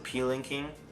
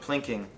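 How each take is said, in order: First: The P is said as a separate letter. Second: The P blends straight into the word.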